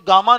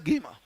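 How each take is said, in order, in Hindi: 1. पहला स्वर 'ah' जैसा बोला जाता है। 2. पहला स्वर 'ay' जैसा बोला जाता है। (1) "इसको गामा नहीं कहते" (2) "इट्स अ गेमा"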